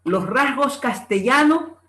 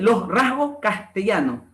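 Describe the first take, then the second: First: "rasgos castellano" drawn out, S voiced in RASGOS; careful, slow "los rasgos castellano"; S sounded in RASGOS. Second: "rasgos castellano" slowly, final S of RASGOS dropped; weakened final S. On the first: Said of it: "debe ser, los rasgos castellano". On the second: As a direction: let the S go at the end of "rasgos". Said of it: "la aspiración de la S implosiva". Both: Shown as a demonstration.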